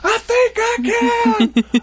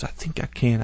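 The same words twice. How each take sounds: First: It is screamed loudly. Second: It is said at normal volume.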